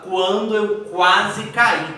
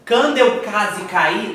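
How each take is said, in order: First: "quando" and "quase" with clear kw glides; U pronounced. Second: "quando" and "quase" as "cando" and "case", louder; U dropped. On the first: Teacher correcting the error, "quando" and "quase" with U heard. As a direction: sound the U in both "quando" and "quase", emphatically. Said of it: "eu tenho o som de U". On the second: Teacher acting out the error, "quando" and "quase" without U. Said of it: "Não, você não fala isso". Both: Shown as a demonstration.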